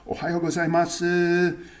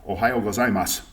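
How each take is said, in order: First: The final u sound is clearly pronounced. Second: The final u sound is dropped. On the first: It is an overly careful, polite delivery. "some people overpronounce it" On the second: It is the usual everyday delivery. "you don't even hear the u at the end"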